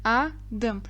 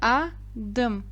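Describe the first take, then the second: First: The word is split with a pause between syllables. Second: The word is split with a pause between syllables.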